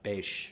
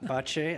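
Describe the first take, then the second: First: The name ends with a 'zh' sound. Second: The name ends with a 'ch' sound. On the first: The speaker calls it right. "I was told beige" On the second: The speaker calls it wrong. "when I said ba- bache"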